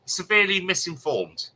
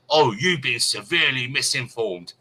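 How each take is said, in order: First: Incredulous echo. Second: Haughty quote. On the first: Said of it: "Never heard that one before". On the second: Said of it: "I was". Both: Retold or imitated.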